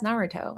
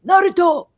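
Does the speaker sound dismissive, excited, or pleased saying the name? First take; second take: pleased; excited. First: The name is said in a pleased, approving way. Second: The name is shouted with strong, excited emphasis. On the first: The speaker likes the card. "if there's a card I do like" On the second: The speaker really loves the card. "if I really like it, I'll hit it with the Sasuke inflection"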